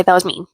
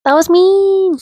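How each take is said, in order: First: Said in the usual way. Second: Very high, drawn-out squeal; mock remorse. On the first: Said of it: "Okay, that was mean". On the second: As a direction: squeak it out in playful self-reproach. Repeats her admission in mock voice.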